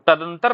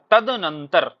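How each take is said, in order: First: तदंतर as ta-dan-tar; wrong form तदंतर. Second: तदनंतर as tad-nan-tar; correct form तदनंतर. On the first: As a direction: drop the extra n syllable in तदंतर. (तदंतर, बीच के न के बिना) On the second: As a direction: sound the middle nan in तदनंतर. (तदनंतर, बीच में नं बोलकर) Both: Shown as a demonstration. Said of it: "तदंतर नहीं होता".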